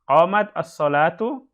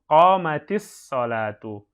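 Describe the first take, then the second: First: The final consonant stays silent before the article. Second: An i vowel links the consonant to the article.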